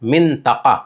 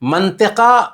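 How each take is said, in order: First: The word begins with 'min', ending in 'taqa'. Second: The word begins with 'man', ending in 'tika'. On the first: This is the correct formal Arabic form. The speaker calls it right. "फसीह और सही अरबी के हिसाब से ओ मिंतका है" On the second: This is the everyday colloquial form. The speaker calls it wrong. "मंतिका गलत है। आम गुफ्तगू में मंतिका बोल देते हैं"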